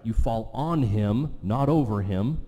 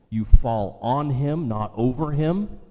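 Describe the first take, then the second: First: "on" punched, "over" rising; slow, hit "on" and lift "over"; stress on on. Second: "you fall on him" slow and loud, "not over him" rising; stress on on and over. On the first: Preacher repeats the point to the congregation, stressing on. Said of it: "repeats the contrast". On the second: Preacher drives home fall on him, not over him, slowly and loud. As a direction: lean hard on "on" then "over". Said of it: "preacher stresses on versus over". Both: Shown as a demonstration.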